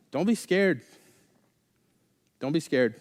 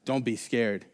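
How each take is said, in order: First: Monotone calm prophet. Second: Low, soft, even reassurance; monotone calm prophet. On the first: Elisha calming his terrified servant, monotone. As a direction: say it as if nothing is wrong. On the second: Elisha calming the servant again, low monotone. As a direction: drop it low and unbothered. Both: Retold or imitated. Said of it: "really monotone voice".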